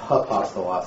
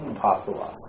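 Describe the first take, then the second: First: It begins with a breathy h sound. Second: It begins directly with the vowel. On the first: The speaker calls it wrong. "it's not apostolos" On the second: The speaker calls it right. "is placed over the first vowel and is not pronounced"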